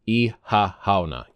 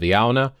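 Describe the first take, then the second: First: The first part of the word is drawn out. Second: The first part of the word is short and clipped. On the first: "this one's a little bit more drawn out" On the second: "Instead of Iauna"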